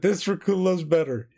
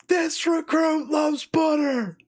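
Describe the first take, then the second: First: Said in the usual way. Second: Much higher, louder, slow drawn-out scream; scream at the top of lungs. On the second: Retold or imitated. Recruit screaming his line to a silent chow hall, full-voiced scream. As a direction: belt it across the whole chow hall. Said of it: "I screamed at the top of my lungs".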